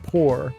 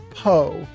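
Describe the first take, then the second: First: The final R sound is pronounced. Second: The final R sound is dropped.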